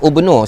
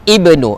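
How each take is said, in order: First: The word starts with a 'u' vowel. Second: The word starts with an 'i' vowel. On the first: The speaker calls it wrong. "saya tak baca ubnu" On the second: The speaker calls it right. "saya baca Uzairun ibnu"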